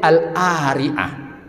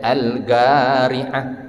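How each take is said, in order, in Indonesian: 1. Bunyi q dihilangkan sebelum vokal. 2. Bunyi q diucapkan sebagai g. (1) "dialek Amiyah Mesir ... qaf baris atas berubah jadi a"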